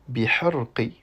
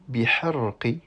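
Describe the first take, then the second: No difference in how they are said.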